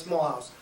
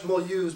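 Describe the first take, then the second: First: "Mulhouse" said as English "mull-house"; pronounced as spelt. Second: "Mulhouse" said the French way, ending in "-ooz"; French pronunciation. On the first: Correcting the French name for listeners, English spelling pronunciation. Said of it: "but it's Mulhouse". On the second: Telling listeners the station's French name, French pronunciation. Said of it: "we pronounce it in French". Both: Shown as a demonstration.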